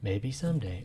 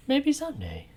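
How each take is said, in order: First: Low wistful murmur; low sigh-like reply; low soft take. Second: Squeaky high hopeful; high mock-hopeful voice; high take. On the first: Acted. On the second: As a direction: lift it way up.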